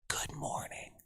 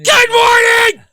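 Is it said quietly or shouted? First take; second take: quietly; shouted. First: It is said quietly, almost whispered. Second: It is shouted loudly.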